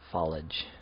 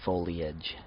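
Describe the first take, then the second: First: It is said with two syllables, no separate E. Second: The E is said as its own separate syllable. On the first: "I've heard people say foliage recently" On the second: "the E sound has always been a, uh, its own syllable for me"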